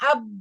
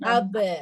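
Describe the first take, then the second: First: The final b is closed off abruptly. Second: The final b is released with a slight bounce. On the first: The speaker calls it wrong. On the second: The speaker calls it right.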